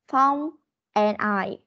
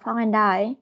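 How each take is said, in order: First: Each word is said separately and carefully. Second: The words run together with linked sounds. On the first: "Đọc chuẩn cho cô là Phong and I" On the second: "khi mình đọc để cho nó tự nhiên hơn thì mình sẽ đọc là"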